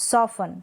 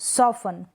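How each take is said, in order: Both takes have the same delivery.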